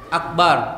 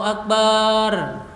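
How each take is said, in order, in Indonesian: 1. Vokal pada suku kata terakhir dibuat pendek. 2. Vokal pada suku kata terakhir dipanjangkan. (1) "Yang benar adalah bar. Jadi tidak ada madnya, langsung ro mati" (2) "ada alifnya, mad. Mad itu artinya panjang. Itu yang tidak benar"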